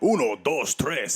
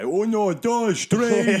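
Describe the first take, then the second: First: It is said in a Spanish accent. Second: It is said in a mock Portuguese accent.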